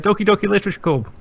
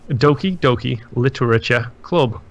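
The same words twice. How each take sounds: First: It is said quickly. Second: It is said slowly.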